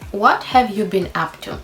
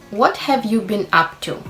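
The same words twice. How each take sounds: Both takes have the same delivery.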